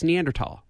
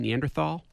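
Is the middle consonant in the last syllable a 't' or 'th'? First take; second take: t; th. First: The last syllable is said with a 't' sound. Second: The last syllable is said with a 'th' sound. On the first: The speaker calls it right. "but it's Neanderthal" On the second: The speaker calls it wrong. "everybody wants to say Neanderthal, including me, because it just seems like it's easier to say and it sounds better"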